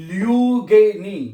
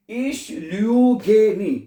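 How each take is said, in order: First: Said in the usual way. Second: Ich lüge nie, each word drawn out slowly; slow teaching demo. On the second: Shown as a demonstration. Teacher to Hindi-speaking students, slow and deliberate. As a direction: spell it out slowly for learners. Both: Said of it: "मैंने बताया है कि ich के साथ".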